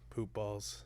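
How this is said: It is said in a sad, resigned way.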